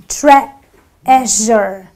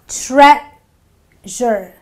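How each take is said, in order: The two takes are said the same way.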